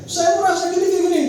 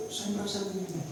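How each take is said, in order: First: Loud, high replay of an argument; agitated complaint. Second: Soft, careful statement of feeling; gentle complaint. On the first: Husband complaining to his wife, loud and agitated. Replaying the failed tip in conflict. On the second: Husband hoping to calm his wife, soft and careful. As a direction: say it softly to calm things down. The tip as he imagined it. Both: Retold or imitated.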